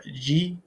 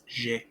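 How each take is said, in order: First: Letter "G" said the English way, "jee"; wrong English G. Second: Letter "G" said the French way, "zhay". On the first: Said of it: "It's not, uh". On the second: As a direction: say "G" as French "zhé", soft zh. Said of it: "be careful with that G". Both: Shown as a demonstration.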